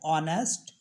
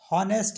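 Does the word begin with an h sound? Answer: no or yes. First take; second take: no; yes. First: The word begins with a vowel sound. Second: The word begins with an h sound. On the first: The speaker calls it right. "इसको बोलते हैं ऑनेस्ट" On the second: The speaker calls it wrong. "हॉनेस्ट नहीं पढ़ते"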